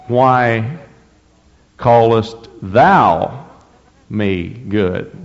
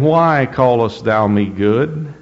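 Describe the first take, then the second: First: Slow, with pauses between "Why", "callest thou" and "me good"; emphasis on why callest thou me good. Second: Said in the usual way. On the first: Shown as a demonstration. Preacher rereads the verse to show its true weight, with slow pauses. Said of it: "I think the emphasis is on the". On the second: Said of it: "the emphasis is on the".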